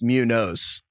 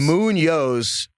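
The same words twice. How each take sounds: First: The n sounds like a plain n. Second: The n sounds like ny, palatal. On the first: The speaker calls it wrong. "I keep mispronouncing" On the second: The speaker calls it right. "the tilde is over the N"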